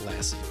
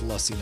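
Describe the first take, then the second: First: The first vowel sounds like 'a' in 'lass'. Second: The first vowel sounds like 'uh'. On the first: The speaker calls it wrong. "not lassie" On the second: The speaker calls it right. "it's lussy"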